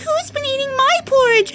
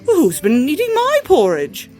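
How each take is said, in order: First: It is said in a tiny little voice. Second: It is said in a middle-sized voice. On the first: "he said in a tiny little voice" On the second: "said in a middle-sized voice"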